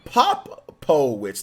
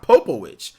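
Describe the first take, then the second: First: Popowich broken slowly into "POP... po-witch"; corrected name pronunciation. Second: Popowich as "POH-po-witch", long O first; wrong name pronunciation. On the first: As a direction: sound out Popowich loudly, short vowel in POP. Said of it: "It's Popowich". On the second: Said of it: "not Popowich". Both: Shown as a demonstration.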